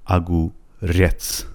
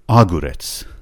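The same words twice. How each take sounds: First: The stress is on the last syllable. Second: The stress is on the first part. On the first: The speaker calls it right. "فشارش روی رت هستش" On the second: The speaker calls it wrong. "اگه میخواست فشارش روی نیمه اول کلمه باشه، اون موقع میشد اگوریت"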